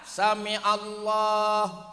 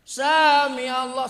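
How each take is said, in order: First: The first vowel is kept short. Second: The first vowel is drawn out long. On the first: The speaker calls it right. "Sa, jangan" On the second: The speaker calls it wrong. "saja dipanjangin"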